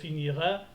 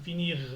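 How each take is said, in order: First: An extra a vowel follows the final r. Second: The word stops on the r, no vowel. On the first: The speaker calls it wrong. "J'ai pas dit" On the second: The speaker calls it right. "j'ai dit r. Je me suis arrêté"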